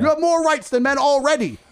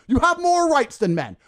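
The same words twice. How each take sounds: First: More hit high and loud; You have more rights than men already, the word more stressed loud and high. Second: You have more rights than men, the word have hit hard and drawn out; stress on have. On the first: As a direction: punch the word more with rising anger. Repeating the point, louder. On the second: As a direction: have punched, slow and louder. Repeating the point to feminists. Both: Real, not acted.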